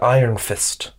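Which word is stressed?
Iron. The stress is on the word Iron. The speaker calls it wrong. "He kept saying, Iron Fist"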